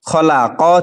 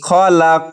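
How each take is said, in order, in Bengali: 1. শব্দটি q-এর পরে একটি হ্রস্ব স্বরে শেষ হয়। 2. শব্দটি প্রতিধ্বনিযুক্ত q-থামায় শেষ হয়। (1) "অক্ষ করিলে এক জবরকে বাদ দিয়ে সাকিন করতে হবে" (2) "ধাক্কা দিয়ে প্রতিধ্বনি করে পড়তে হবে"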